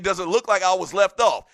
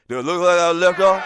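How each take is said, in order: First: The words are spoken clearly and distinctly. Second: The words are slurred together and mumbled. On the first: This is what the person meant to say. "He was trying to say" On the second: This is how the person actually sounded. "But it came out like this"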